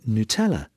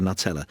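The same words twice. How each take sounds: First: Nutella said as noo-TELL-a; website's pronunciation. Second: Nutella said as NUT-ella; English pronunciation. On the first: Retold or imitated. Presenter reading the website's answer, noo-TELL-a for Nutella. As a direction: open Nutella with a long oo. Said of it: "How do you pronounce it?". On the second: Shown as a demonstration. Presenter insisting on the familiar name, English NUT-ella for Nutella. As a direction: start Nutella like the word nut. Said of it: "it's called Nutella".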